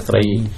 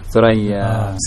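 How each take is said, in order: First: The word ends with an 'ee' vowel. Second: The word ends with an 'ah' vowel. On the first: This is the local way the season is named. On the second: This is the standard name of the star cluster.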